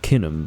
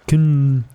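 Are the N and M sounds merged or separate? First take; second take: separate; merged. First: The N and M are said separately. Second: The N and M are said together. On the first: The speaker calls it wrong. "Not Kinham" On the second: The speaker calls it right. "pronounce the letters N and M at the same time"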